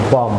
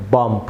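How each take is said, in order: First: বম ending on a pure m; silent b. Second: বম্প closed with an audible p-like stop; wrongly sounded b. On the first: Teacher gives viewers the correct form, বম without b. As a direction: close the lips on m in বম, no release. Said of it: "এটির সঠিক pronounce হবে". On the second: Teacher shows viewers the error, a final stop on বম্প. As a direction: pop the lips open at the end of বম্প. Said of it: "বি যুক্ত করে উচ্চারণ করি তাহলে". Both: Shown as a demonstration.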